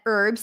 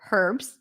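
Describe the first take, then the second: First: The word begins without an H sound. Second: The word begins with an H sound. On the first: "in American English" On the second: "In British English, you will hear herbs"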